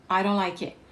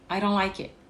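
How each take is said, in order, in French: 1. Les mots s'enchaînent avec des consonnes réduites. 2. Les mots s'enchaînent avec des consonnes réduites.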